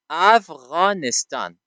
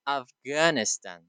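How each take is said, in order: First: AFGHANISTAN said slowly with a throaty ghayn and long open a's; correct native pronunciation. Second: AFGHANISTAN with a hard g and flat a, "Af-GAN-istan"; foreigners' mispronunciation. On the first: Shown as a demonstration. Teacher models our country's name for students, correct native pronunciation. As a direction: say Afghanistan the local way, "Av-ghaa-nis-taan", drawn out. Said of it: "درست تلفظ بکنند".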